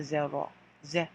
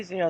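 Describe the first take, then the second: First: Zero said zeh-ro with French r; zero, open e and pure o. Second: Said in the usual way. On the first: Shown as a demonstration. Teacher contrasting English and French: zero as zeh-ro. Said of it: "they say zero". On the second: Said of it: "So we say zero".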